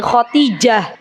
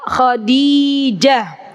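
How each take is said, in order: First: The name is said with a t sound. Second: The name is said with a d sound. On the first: The speaker calls it wrong. "jangan sampai ketukar jadi Khotijah" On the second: The speaker calls it right. "jadi yang betul adalah Khadijah"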